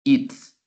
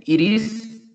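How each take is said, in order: First: "it's" short, ending in S; contracted it's. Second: "It is" high, both words separate; full it is. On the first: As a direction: clip to "it's". ("it's" contraído y corto) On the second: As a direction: stress the uncontracted "It is". ("It is" completo, agudo) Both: Shown as a demonstration. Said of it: "Escuchan la diferencia".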